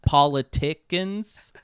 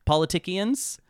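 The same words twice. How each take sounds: First: "politicians" drawn out, missing its "sh" sound, as "polly-TICK-ins"; slowly mangle "politicians" into "polly-TICK-ins"; mock mispronunciation. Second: "politicians" as "polly-TICK-ee-ans", higher, like a question; mock mispronunciation. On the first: Host joking about politics on the show, mangling "politicians" as "polly-TICK-ins". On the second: Host questioning his own word, mangling "politicians" as "polly-TICK-ee-ans".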